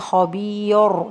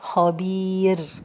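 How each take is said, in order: First: The r is pronounced heavy, with a full back sound. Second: The r is pronounced light, with a thin sound. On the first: The speaker calls it wrong. "I'm not saying خبير, no" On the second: The speaker calls it right. "light ra"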